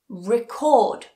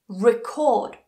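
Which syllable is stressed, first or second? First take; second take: second; second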